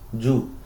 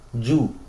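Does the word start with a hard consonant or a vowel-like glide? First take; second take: hard consonant; hard consonant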